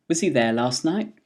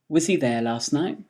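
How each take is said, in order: The two takes are said the same way.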